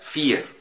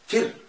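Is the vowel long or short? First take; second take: long; short. First: The vowel is long. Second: The vowel is short. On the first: The speaker calls it right. "مدها شويه" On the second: The speaker calls it wrong. "ما تجيش تقول لي"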